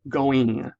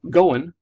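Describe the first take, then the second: First: The final G sound is clearly said. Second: The final G sound is left off. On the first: The speaker calls it right. "instead of going" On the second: The speaker calls it wrong. "we drop sounds from things"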